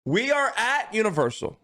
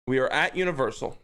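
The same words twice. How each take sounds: First: "We are at Universal" pitched high with a falling finish; grand storyteller reading "We are at Universal"; dramatic scene-setting. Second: "We are at Universal" said fast and lower, tossed off; brisk throwaway "We are at Universal"; quick casual repeat. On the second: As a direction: rattle off "We are at Universal" plainly. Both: Shown as a demonstration. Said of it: "let me set the scene".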